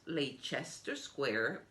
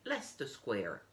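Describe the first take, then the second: First: The name is said the way it is spelled. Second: The name is said differently from its spelling. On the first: The speaker calls it wrong. "it's spelled Leicester Square" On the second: The speaker calls it right. "but you say Leicester Square"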